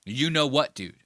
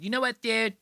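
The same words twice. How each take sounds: First: Said in the usual way. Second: Higher, playful echo of the title; put-on podcast title. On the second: Host echoes Robert Kelly's podcast title, playfully put-on.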